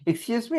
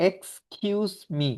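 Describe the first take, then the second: First: Said in the usual way. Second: "এক্সকিউজ মি" said slowly, each syllable clear; careful pronunciation. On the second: Shown as a demonstration. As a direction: spell out "এক্সকিউজ মি" slowly for the class. ("এক্সকিউজ মি" ধীরে, স্পষ্ট উচ্চারণে) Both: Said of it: "উচ্চারণটা সবাই খেয়াল করবেন".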